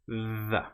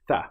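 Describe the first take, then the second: First: The th sound is buzzed with the voice. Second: The th sound is only breath, unbuzzed. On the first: "And then we let our vocal cords engage, we push the air through" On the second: "The non-voiced sound here is where we don't engage the vocal cords"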